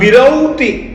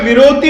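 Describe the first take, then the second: First: The middle vowel is the diphthong 'au'. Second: The middle vowel is a plain 'o'. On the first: The speaker calls it right. "अब विरौति औ ही बोला जाएगा" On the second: The speaker calls it wrong. "विरोती नहीं आप बोल सकते"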